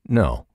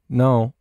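First: The pitch falls at the end. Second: The pitch rises at the end. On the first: The answer sounds final. "He could have easily gone" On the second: The answer leaves listeners hanging and wanting more. "he continues with the upward inflections"

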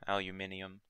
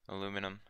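First: The word is said a non-American way. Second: The word is said the American way.

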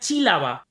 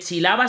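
First: The stress is on the first syllable. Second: The stress is on the second syllable. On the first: "Te estoy forzando que chilaba sea chílaba" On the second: "la tónica es la, no chi"

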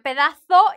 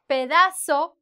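First: The z is pronounced like English th. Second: The z is pronounced like an s.

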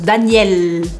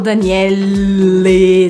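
First: The word ends right on the L sound. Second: An extra vowel is sounded after the final L. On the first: The speaker calls it right. "Eu termino o som no L" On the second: The speaker calls it wrong. "Eu não falo Daniele"

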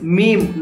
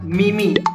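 First: It is said as one syllable, like 'meem'. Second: It is said as two syllables, like 'me-me'. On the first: The speaker calls it right. "it's meme" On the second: The speaker calls it wrong. "not meme"

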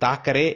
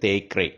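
First: The first vowel sounds like a long 'ah'. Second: The first vowel sounds like 'eh'. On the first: The speaker calls it wrong. "இது தாக்கரே இல்ல" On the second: The speaker calls it right. "இது தேக்கரே"

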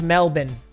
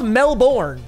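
First: The name is said in its local form. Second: The name is said the way it is spelled. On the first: The speaker calls it right. "It's pronounced Melbourne" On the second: The speaker calls it wrong. "it's spelled Melbourne, but that is not how you pronounce it"

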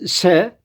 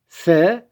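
First: The s is a plain hissing sound. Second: The s is lisped, like English th. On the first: "Ben peltek yapmadan çıkarıyorum" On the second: "Peltek haliyle söyleyecek olursak"

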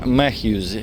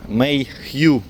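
First: The name is said as Matthews. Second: The name is said as Mayhew. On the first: The speaker calls it wrong. "неправильно кажу" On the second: The speaker calls it right. "так правильно казати"

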